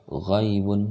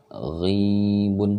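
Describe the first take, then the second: First: "ghaibun" with a brief ghai glide; short diphthong. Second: "ghibun" with the i held long; long vowel. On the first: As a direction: chant "ghaibun" without holding "ghai". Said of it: "oh ini tidak panjang". ("ghaibun" tidak dibaca panjang) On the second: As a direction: stretch "ghi" well out before "bun". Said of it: "oh ini panjang". ("ghibun" dengan ghi dipanjangkan) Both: Shown as a demonstration.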